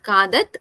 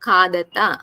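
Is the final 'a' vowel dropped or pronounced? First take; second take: dropped; pronounced. First: The word ends on a bare consonant. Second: The word ends with a full final 'a' vowel. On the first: The speaker calls it wrong. "not khadat" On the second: The speaker calls it right.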